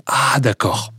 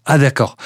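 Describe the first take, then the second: First: A soft, hushed first "Ah, d'accord" as it starts to click; quiet dawning realization. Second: Delighted realization. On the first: Guest miming a listener hearing the song finally take off, hushed surprise. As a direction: murmur it to yourself as the penny begins to drop. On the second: Guest miming a listener who finally gets the song, pleased surprise. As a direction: land the second "Ah, d'accord" brighter, fully getting it. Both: Retold or imitated. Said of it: "et tu dis".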